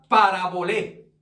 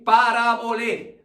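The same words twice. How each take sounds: First: "parabolé" with stress on the final é; "parabolé", Greek word, accent on the final E; Greek pronunciation. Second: "Parabolé" said slowly, stressing the final É; slow "Parabolé", landing hard on the last É; "Parabolé", slow, accent on the final É. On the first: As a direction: say "parabolé" stressing the last syllable, pa-ra-bo-LÉ. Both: Shown as a demonstration. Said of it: "Con acento en la E al final".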